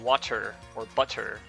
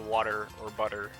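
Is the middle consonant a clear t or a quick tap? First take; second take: clear t; tap. First: The middle consonant is a clear t sound. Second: The middle consonant is a quick tap sound. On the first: "instead of saying" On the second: "you'd say"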